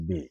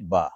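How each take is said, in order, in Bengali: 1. অক্ষরের নামটি 'eh' স্বরধ্বনি দিয়ে শেষ হয়। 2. অক্ষরের নামটি খোলা 'ah' স্বরধ্বনি দিয়ে শেষ হয়। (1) "যখন উর্দুতে পড়বো তখন পড়বো বে" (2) "আরবিতে যখন পড়বো আমরা তখন পড়বো কি বা"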